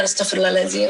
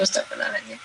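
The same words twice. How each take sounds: First: Said in the usual way. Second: Low, unvoiced whisper of astagfirullahaladzim, much softer; repeating astagfirullahaladzim to herself in a fading low whisper; whispered istighfar. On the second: Shown as a demonstration. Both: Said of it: "kemudian jalan".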